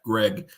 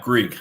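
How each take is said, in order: First: The name has a short e vowel, like peg. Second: The name has a long ee vowel, like seek. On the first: The speaker calls it right. "it is in fact Greg" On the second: The speaker calls it wrong. "not Greek"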